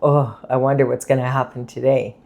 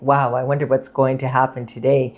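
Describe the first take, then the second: First: It is said in a gloomy, unenthusiastic tone. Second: It is said in an excited, upbeat tone.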